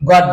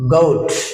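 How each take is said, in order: First: The vowel is a short o sound. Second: The vowel is a long oh sound. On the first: The speaker calls it wrong. "কেন আমরা এই গট বলছি" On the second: The speaker calls it right. "ও যদি ও pronounce হয়"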